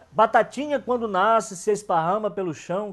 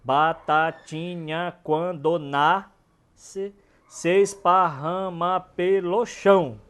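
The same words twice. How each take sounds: First: Put-on higher, louder childlike rhyme recital; sing-song nursery rhyme. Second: Each syllable drawn out very slowly to count the metre; slow scansion. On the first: Teacher recites a children's rhyme, sing-song. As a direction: chant it like a kids' rhyme. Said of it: "E bem infantil mesmo". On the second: Teacher scans the verse to show its metre, very slow. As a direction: stretch out every syllable of "Batatinha, quando nasce". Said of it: "Pode olhar que a métrica tá perfeita". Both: Shown as a demonstration.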